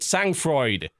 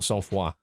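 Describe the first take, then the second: First: The name is read with English-like sounds. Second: The name is read with French-like sounds. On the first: The speaker calls it wrong. "I kept mispronouncing the name of it. I called it" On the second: The speaker calls it right.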